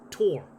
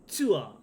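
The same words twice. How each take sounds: First: It is said with an American accent. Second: It is said with a Japanese accent. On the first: "the American kid said to them" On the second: "whatever the Japanese transliteration is"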